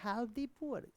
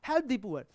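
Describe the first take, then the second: First: It is said in a mild, advising tone. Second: It is said in a strong, commanding tone. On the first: It is advice or a suggestion. "गरीबों की मदद करनी चाहिए" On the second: It is an order. "ये किसी को order दिया जा रहा था"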